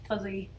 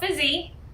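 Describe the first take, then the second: First: The first vowel is centralized toward 'u'. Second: The first vowel is a clear 'i' sound.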